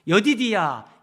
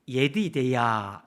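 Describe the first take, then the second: First: The name is said in the Korean Bible form. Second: The name is said in the original Hebrew form.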